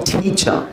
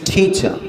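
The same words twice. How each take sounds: Both takes have the same delivery.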